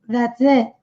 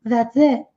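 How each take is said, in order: The two takes are said the same way.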